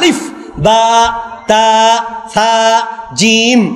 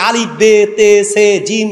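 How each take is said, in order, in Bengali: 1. বর্ণের নামগুলো A স্বরধ্বনিতে শেষ হয়। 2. বর্ণের নামগুলো E স্বরধ্বনিতে শেষ হয়। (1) "এখন" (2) "আমার দাদা ছোটবেলায় পড়েছে"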